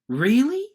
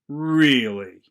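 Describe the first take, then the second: First: It sounds excited and thrilled. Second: It sounds angry and mad. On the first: The speaker is thrilled by the news. "The second one, really? Excitement" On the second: The speaker is mad at someone. "The first one might mean, I'm really angry with you. I'm mad"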